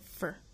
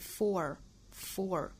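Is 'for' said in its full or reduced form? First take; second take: reduced; full. First: The word is said weakly, without stress. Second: The word is said fully, with stress. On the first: The word is an unemphasized function word. "虚词在句子里一般弱读，所以这个词在这里应该读成 FOR" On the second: The word carries emphasis in the sentence. "这个词要重读的话是 FOR"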